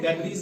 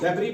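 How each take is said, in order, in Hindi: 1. यह शब्द s की साफ़ सुनाई देने वाली आवाज़ के साथ खत्म होता है। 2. यह शब्द s की आवाज़ के बिना खत्म होता है। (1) "डेब्रीज नहीं पढ़ते हैं" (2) "डेब्री पढ़ते हैं"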